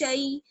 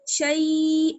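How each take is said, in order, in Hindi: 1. स्वर की ध्वनि छोटी और जल्दी से बोली जाती है। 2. स्वर की ध्वनि लंबी खिंची हुई है। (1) "जिसको जल्दी से पढ़ा जाता है" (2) "शई ऐसे खींचना नहीं है"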